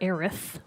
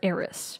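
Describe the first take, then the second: First: The name ends with a th sound. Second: The name ends with an s sound. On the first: The speaker calls it wrong. "Some people call her Aerith with a T H" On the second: The speaker calls it right. "I've always called her Eris. A E R I S"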